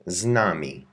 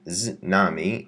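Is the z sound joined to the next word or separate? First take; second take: joined; separate. First: The z slides straight into the word. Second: The z is said apart from the word. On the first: The speaker calls it right. "you slide it together" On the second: The speaker calls it wrong. "So it isn't z nami"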